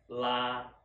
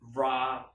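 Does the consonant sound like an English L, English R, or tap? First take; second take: English L; English R. First: It begins with an English-style L sound. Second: It begins with an English-style R sound. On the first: "we want to use this L sound instead of R" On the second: "if you use this R sound in English, then it sounds like this"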